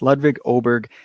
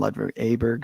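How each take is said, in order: First: The surname begins with an 'o' vowel sound. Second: The surname begins with an 'a' vowel sound. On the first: The speaker calls it right. "it's Ludwig Oberg" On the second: The speaker calls it wrong. "I always mispronounce his name"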